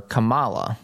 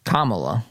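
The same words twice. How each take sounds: First: Kamala stressed on the second syllable, ka-MA-la; wrong stress. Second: Kamala with the stress on the first syllable, KA-mala; correct pronunciation. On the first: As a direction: put the weight on MA in Kamala. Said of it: "I put the accent on the wrong syllable". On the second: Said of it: "I'm gonna say that correctly today". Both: Shown as a demonstration.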